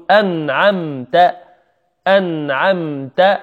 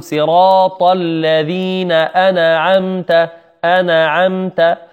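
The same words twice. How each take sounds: First: أنعمت with ن and م held still, "an'amta"; correct still noon. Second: أنعمت with a stray vowel after the noon, "ana'amta"; wrong bounced noon. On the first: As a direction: say أنعمت slowly, closing on the noon without a bounce. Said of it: "نقول". (نطق أنعمت بنون وميم ساكنتين) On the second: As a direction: chant slowly, bouncing the ن in أنعمت into "na". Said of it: "وهذا من الخطأ". (نطق أنعمت خطأً بقلقلة النون) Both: Shown as a demonstration.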